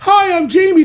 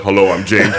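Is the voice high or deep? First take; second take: high; deep. First: It is said in a higher, younger voice. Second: It is said in a deep, low voice.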